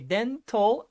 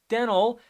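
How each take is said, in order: First: It is said with a British accent. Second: It is said with an American accent.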